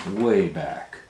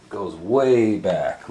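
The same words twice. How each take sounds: First: "Way" hit loud, falling; stress on way. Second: Way drawn out slow and loud; "goes way back" with "way" slowed and leaned on; stress on way. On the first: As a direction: repeat "Way back" with "way" punched. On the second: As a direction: stretch the word "way" long and falling. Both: Shown as a demonstration.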